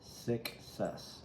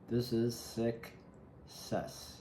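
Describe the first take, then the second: First: Breathy whisper of "Success." falling away; hushed afterthought. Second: Very slow, stretching every word of "This is success."; slow dramatic pronouncement; drawn-out success. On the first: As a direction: whisper it like a secret. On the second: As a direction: savour it, dragging "success" out long. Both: Real, not acted. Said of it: "I don't know why I said it like that".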